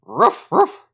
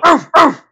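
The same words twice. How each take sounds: First: Mock dog bark, higher and louder. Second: Much higher, louder hammed-up [name] bark. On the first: Host calls him dog pound. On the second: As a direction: go all out on a gruff rapper's bark. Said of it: "a real ruff here? Like a D M X ruff?".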